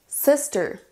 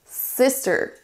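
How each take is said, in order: Both takes have the same delivery.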